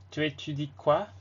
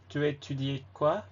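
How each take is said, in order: Both takes have the same delivery.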